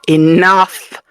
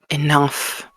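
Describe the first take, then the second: First: It is said louder. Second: It is said quietly.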